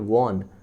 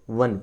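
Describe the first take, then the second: First: The vowel is an open 'aw' sound. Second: The vowel is a short 'uh' sound. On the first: The speaker calls it wrong. "इसको वॉन नहीं पढ़ते हैं, ये वॉन गलत है" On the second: The speaker calls it right. "वन पढ़ते हैं"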